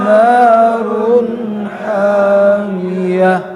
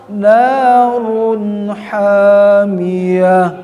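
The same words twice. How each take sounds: The two takes are said the same way.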